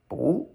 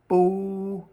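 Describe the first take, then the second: First: The pitch rises from middle to high. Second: The pitch stays high and level. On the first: "That's a rising tone" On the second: "First tone"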